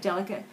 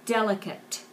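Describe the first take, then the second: First: The final T is dropped almost entirely. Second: The final T is clearly pronounced. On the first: The speaker calls it wrong. "we tend to drop the T off a little bit, and it almost sounds like delicate" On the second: The speaker calls it right. "Make sure you get that final T on there"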